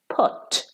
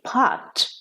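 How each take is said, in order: First: It is said with a British pronunciation. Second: It is said with an American pronunciation. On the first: "but in British English" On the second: "in American English, they would say"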